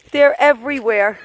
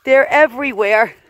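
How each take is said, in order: Both takes have the same delivery.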